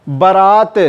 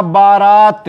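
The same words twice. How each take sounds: First: बारात with a short first vowel; wrong form. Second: बारात with a long first vowel; two long आ sounds in बारात; correct form. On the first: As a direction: say बारात as ba-raat. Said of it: "शुद्ध क्या होगा?". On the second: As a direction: say बारात as baa-raat. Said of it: "इसका शुद्ध होगा". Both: Shown as a demonstration.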